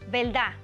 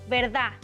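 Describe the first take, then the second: Both takes have the same delivery.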